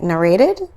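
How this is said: The word is said in an American accent. "my American accent is like narrated"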